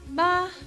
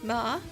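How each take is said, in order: First: The pitch stays high and level. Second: The pitch rises from middle to high. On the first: It means mother. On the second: It means numb.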